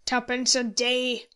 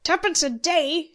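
First: Grind it out slowly like a curse; slow, cursing contempt; muttered curse. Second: Loud, high, incredulous scorn; high-pitched scoffing outburst; scornful exclamation. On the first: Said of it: "muttered Moody with a curse". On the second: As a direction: throw it back with loud contempt. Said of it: "exclaimed Spriggs with scorn". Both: A narrator's reading.

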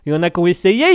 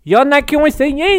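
First: Said in the usual way. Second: Much higher and louder put-on threat; mock menacing voice. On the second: Streamer repeats his warning to chat as a hammy villain.

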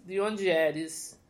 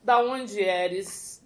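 First: "De onde eres?" slow, the "onde" leaned on; slow corrected Spanish. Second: "Da onde eres?" drawn out slowly, every syllable spaced; slow playful Spanish. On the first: Host correcting her question, slow and careful. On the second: Host asking guest her origins, slowly in Spanish. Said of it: "your origin story". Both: Shown as a demonstration.

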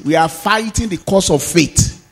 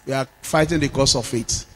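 First: Said in the usual way. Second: Softer, lower repeat; quieter repeat. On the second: Real, not acted. Pastor quietly repeating to the church, softer. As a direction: let it drop into a quiet reflective repeat.

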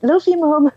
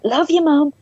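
First: Much higher, louder playful call; teasing singsong. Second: Much higher playful call; teasing singsong. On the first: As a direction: daughter repeating it to tease mum, high. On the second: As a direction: sing it out to tease mum. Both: Retold or imitated. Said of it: "trying to embarrass her".

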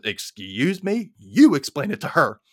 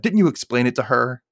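First: Drawn-out, higher "Excuse me", then YOU hit hard; indignant stress on YOU. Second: Said in the usual way. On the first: Retold or imitated. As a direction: throw it back indignantly, punching "You". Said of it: "And her mom goes". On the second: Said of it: "Angela's like looking at her dad".

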